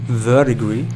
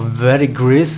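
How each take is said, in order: First: It is said with a non-American pronunciation. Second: It is said with an American pronunciation.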